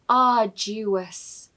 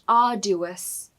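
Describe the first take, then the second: First: The D is followed by a Y sound. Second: The D is said without a Y sound. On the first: The speaker calls it right. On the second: The speaker calls it wrong.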